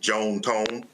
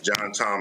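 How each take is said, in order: First: The name is said in a Southern drawl. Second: The name is said in a standard accent.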